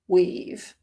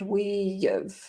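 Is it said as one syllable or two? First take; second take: one; two. First: One short contracted syllable with no glide. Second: Two full words with a y glide between them. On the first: "it might get even more condensed and become we've" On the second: "kind of a, an intrusive y sound"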